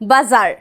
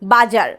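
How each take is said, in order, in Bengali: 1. মাঝের ব্যঞ্জনটি ভোঁ-ভোঁ আওয়াজের z। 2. মাঝের ব্যঞ্জনটি ভোঁ-ভোঁ আওয়াজের z নয়। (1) "কিন্তু হবে এটা বাজার" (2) "এই শব্দটা অনেকেই বলে বাজার"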